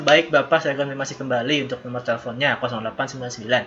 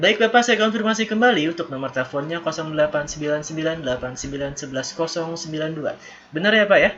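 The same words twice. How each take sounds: First: Low, quick, unengaged phone confirmation; poor intonation. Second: Lifted "Baik, Bapak", measured confirmation, raised check at "Benar ya"; good intonation. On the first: Teacher showing students a bad phone confirmation, poor intonation. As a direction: rush the number confirmation with little melody. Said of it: "intonasinya masih kurang". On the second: Teacher modelling a phone confirmation for students, good intonation. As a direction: confirm the number attentively with a melodic customer-service tune. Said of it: "Seperti itu". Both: Shown as a demonstration.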